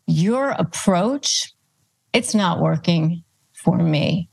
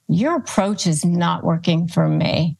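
First: "Your approach," slowed and rising, then a pause before "it's not working" and another before "for me.". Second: Said in the usual way. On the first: Shown as a demonstration. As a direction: spell it out slowly, pausing between the parts. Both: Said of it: "Again, you're pushing it back on them".

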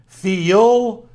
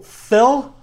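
First: "Phil" stretched into two syllables, fee-ul, louder and higher; "Phil" in a Southern Virginia drawl, said as two syllables; drawn-out two-syllable Phil. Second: "Phil" clipped to one short syllable, higher and louder; "Phil" said crisp as one syllable, imitating the correction. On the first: Retold or imitated. Teasing his friend by saying "Phil" as fee-ul. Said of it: "I try to add an extra syllable". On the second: Mimicking his friend's correction, "Phil" as one syllable. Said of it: "He's quick to say that it's one syllable".

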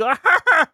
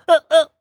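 First: Big Pee-wee laugh. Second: High, louder squealing laugh; other Pee-wee laugh. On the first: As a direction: burst out in a big high cackle. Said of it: "The big". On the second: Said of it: "or the". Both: Shown as a demonstration.

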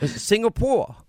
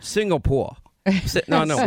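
First: Higher-pitched mimicking voice; hammed-up high co-host impression; Linda. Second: Lightly voiced co-host impression; Linda. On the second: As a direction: answer in a mild mimicking voice. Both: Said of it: "and I'll say, Linda, where are we".

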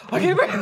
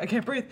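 First: Loud, high mock panic; high-pitched cry for air, played for laughs; panic attack. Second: Mild retold breathless worry; panic attack. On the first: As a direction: act out escalating claustrophobic panic. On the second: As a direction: act out the first hint of panic. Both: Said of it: "I start panic attacking".

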